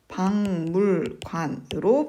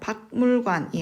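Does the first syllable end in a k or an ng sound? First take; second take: ng; k. First: The first syllable ends in an ng sound. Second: The first syllable ends in a k sound. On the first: The speaker calls it right. "비음하죠" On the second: The speaker calls it wrong. "박물관이 아니라"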